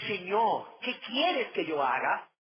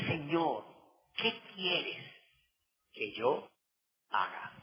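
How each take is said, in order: First: Slower, fuller, earnest plea; earnest surrender. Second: Soft, fading question, a hint of fear; trembling and fearful. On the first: Acted. Saul yields to his new master, earnest and slow. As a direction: offer the question as full surrender. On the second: A hint of fear as the preacher re-reads Saul's question. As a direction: let the question shrink away quietly. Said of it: "Temblando y temeroso dijo".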